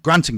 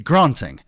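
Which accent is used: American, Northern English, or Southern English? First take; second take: Northern English; Southern English. First: It is said in a Northern English accent. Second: It is said in a Southern English accent. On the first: "I'm from Newcastle, so I would say grant" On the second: "In the South, it would be granting, uh, with that unnecessary R sound in it"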